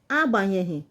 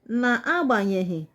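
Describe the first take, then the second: First: The word starts directly with the a sound. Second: The word starts with an extra na syllable.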